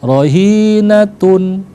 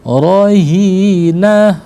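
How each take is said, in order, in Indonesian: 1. Kata itu berakhir dengan suku kata tun. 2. Kata itu berakhir dengan bunyi h. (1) "Kalau kita wasal" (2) "Tapi kalau kita waqaf maka dibaca ha"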